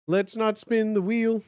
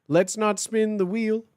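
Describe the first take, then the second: No difference in how they are said.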